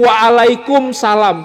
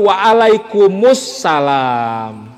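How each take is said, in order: First: Kum runs straight into salam with no vowel. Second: An extra u vowel links kum to salam. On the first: The speaker calls it wrong. "lafaz yang benar tidak cukup waalaikumsalam" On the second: The speaker calls it right. "tapi waalaikumussalam. Karena pakai alif lam"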